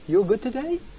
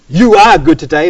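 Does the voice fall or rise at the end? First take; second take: rises; falls. First: The voice rises at the end. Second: The voice falls at the end. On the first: It is a question. "Just raised a certain number of my words at the end, pushed them up" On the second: It is a statement of fact. "as a statement of fact"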